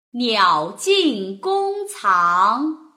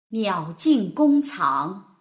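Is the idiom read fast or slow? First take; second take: slow; fast. First: It is read slowly with very clear articulation. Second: It is read faster with expressive feeling.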